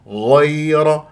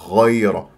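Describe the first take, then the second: First: The first sound is clean, voiced, lips open. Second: The first sound has breath, like kha. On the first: The speaker calls it right. "فإذا غ غير" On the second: The speaker calls it wrong. "فراح تشممها خاء ... وهذا غلط"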